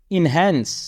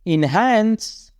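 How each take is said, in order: First: Said in the usual way. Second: Slow drawn-out repeat. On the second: Shown as a demonstration. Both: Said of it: "teacher repeats word".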